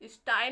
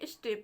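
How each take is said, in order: First: The vowel sounds like 'eye'. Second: The vowel sounds like 'ay'. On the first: The speaker calls it wrong. "स्टाई नहीं पढ़ेंगे" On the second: The speaker calls it right. "स्टे पढ़ेंगे"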